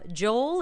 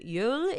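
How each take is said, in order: First: The name is said the American way. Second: The name is said the Dutch way.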